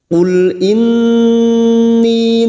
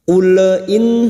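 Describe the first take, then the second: First: The L sound is held without any bounce. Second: The L sound bounces with an added vowel. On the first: The speaker calls it right. "Kita cukup membaca masuk pada huruf lam tanpa dipantulkan" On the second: The speaker calls it wrong. "itu yang disebut dengan tawalud, memantulkan huruf hijaiyah selain huruf qalqalah"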